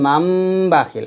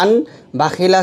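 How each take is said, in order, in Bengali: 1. b-এর আগে একটি m ধ্বনি আছে। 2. b-এর আগে একটি স্পষ্ট n ধ্বনি আছে। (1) "বলতে হবে মাম বাখিলা" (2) "মান বাখিলা আছে"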